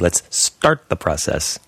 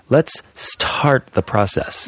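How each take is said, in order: First: The T in start sounds like a D. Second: The T in start has a strong puff. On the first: The speaker calls it right. "You'd say" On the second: It marks a non-native speaker. The speaker calls it wrong. "No American would ever say that"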